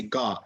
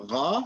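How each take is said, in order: First: Ga with a hard g, airflow stopped; Ga as a blocked, plosive g; common mistake. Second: Gha with a continuous throat fricative; correct ghain. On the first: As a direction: show the wrong Ga as in English "go". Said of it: "you say Ga". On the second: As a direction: let the air flow through Gha. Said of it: "instead of saying Ga". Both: Shown as a demonstration.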